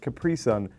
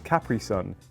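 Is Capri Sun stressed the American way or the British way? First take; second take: American; British. First: The stress falls where American speakers put it. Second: The stress falls where British speakers put it. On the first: The speaker calls it wrong. "You're putting the emphasis on the completely wrong part of the word" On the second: The speaker calls it right. "We pronounce this Capri Sun"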